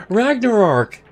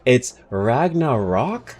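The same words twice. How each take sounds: First: "Ragnarok" said as "RAG-ner-ock" with an r-colored middle and a flat falling tone; old pronunciation. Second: Slow, testing "Ragnarok" as "RAG-nuh-rock" with a rising tone; unsure pronunciation. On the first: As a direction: say "Ragnarok" the way you always have, with an "er" in the middle. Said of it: "exactly as I was saying it". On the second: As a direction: sound out "Ragnarok" carefully with a questioning rise. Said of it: "is that how you pronounce it". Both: Shown as a demonstration.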